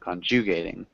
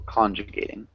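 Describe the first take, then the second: First: The stress is on a later syllable. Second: The stress is on the first syllable. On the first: The speaker calls it wrong. "instead of saying" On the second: The speaker calls it right. "Actually emphasize the first syllable"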